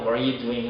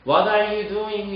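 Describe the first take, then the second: First: "What are you doing?" as "whar-you doing"; fuse "What are" and move straight on; "What are you doing?" with "are" merged into "What"; linked R and T. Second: "What are you doing?" with "What" and "are" separated; high, slow learner-style "What are you doing?"; unlinked learner pronunciation. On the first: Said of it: "그냥 붙이거나". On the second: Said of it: "이라고 발음이 나오실 것 같으면". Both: Shown as a demonstration.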